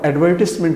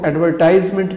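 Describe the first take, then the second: First: The third syllable sounds like 'iss'. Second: The third syllable sounds like 'ize'. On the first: The speaker calls it right. "एडवर्टिसमेंट इसकी दुरुस्त सूरत है" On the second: The speaker calls it wrong. "इसको एडवर्टाइजमेंट कहना गलत होगा"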